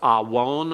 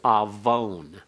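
First: The word uses the traditional, non-modern pronunciation. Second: The word uses the modern Hebrew pronunciation. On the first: "So it's awon" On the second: "or if in modern Hebrew, it's avon"

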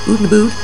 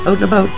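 First: The vowel in out and about sounds like oo. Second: The vowel in out and about sounds like ow. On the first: This is how others think it is said. The speaker calls it wrong. "People think we say oot and aboot" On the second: This is how it is actually said. The speaker calls it right. "We say out and about"

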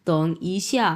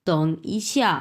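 Both takes have the same delivery.

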